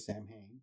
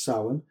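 First: The word is pronounced the American way. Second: The word is pronounced the Irish way. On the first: The speaker calls it wrong. "In America, they say Samhain. Wrong" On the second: The speaker calls it right. "But it's Samhain. From Irish Celtic points of view"

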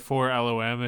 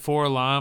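First: The name is spelled out letter by letter. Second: The name is spoken as a single word.

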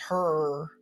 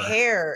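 First: The vowel sounds like 'er', a Southern regional pronunciation. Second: The vowel sounds like 'air' in standard speech.

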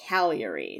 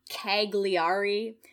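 First: It is pronounced the way locals say it. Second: It is pronounced the way the spelling suggests. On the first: The speaker calls it right. "but apparently it's Cagliari" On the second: The speaker calls it wrong. "the one that looks like Cagliari"

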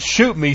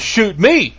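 First: The stress falls on the word shoot. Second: The stress falls on the word me. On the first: The speaker is asking to be killed. The speaker calls it wrong. "It wasn't shoot me, shoot me" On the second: Shoot this person instead of the others. The speaker calls it right. "there's a difference in the inflection of the voice there"

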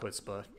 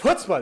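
First: The word is said quietly and flatly. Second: The word is said loudly and with energy. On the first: The speaker calls it wrong. "not chutzpah" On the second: The speaker calls it right. "With gusto! Yes, they did it with chutzpah"

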